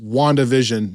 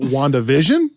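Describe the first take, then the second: First: The stress is spread evenly, like one word. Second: The stress falls heavily on the 'vision' part. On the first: "just WandaVision, no accent" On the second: "put emphasis on vision"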